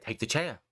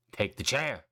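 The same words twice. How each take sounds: First: Low, firm order to take the chair; Roman's command. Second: Menacing repeat. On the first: Roman tells Sami to take the chair, firm. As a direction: push him to grab the chair. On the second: Roman pressing Sami again to take the chair, darker. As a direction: lower and darker, pressing the order. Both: Retold or imitated.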